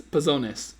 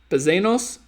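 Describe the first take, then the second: First: "Pezones" said with an o sound, falling and settled; corrected word. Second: "Pezenos" with a long e in the middle, unsure rising question; guessing at "Pezenos", ending on a lift; wrong try. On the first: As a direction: land "Pezones" firmly with the o. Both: Shown as a demonstration. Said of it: "so it's pezones".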